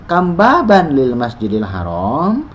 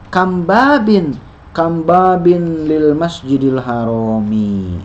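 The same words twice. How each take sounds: First: "Kam baban lil masjidil haram?" slow, rising at the end like a question; slow teacher's question with a lifted ending; question intonation. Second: "Kam babin lil masjidil harami?" slow, falling at the end like a statement; slow teacher's reading with a falling statement tune; statement intonation. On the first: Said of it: "Jadi ubah jadi pertanyaan". (intonasi pertanyaan, naik di akhir) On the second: (intonasi pernyataan, turun di akhir) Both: Shown as a demonstration.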